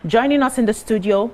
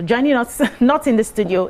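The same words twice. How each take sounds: First: Said in the usual way. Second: Self-correction stressing "not"; amused correction, "not" picked out firmly. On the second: Real, not acted. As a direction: lean on "not" to correct the slip, with a small laugh. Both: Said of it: "or joining us not in the studio".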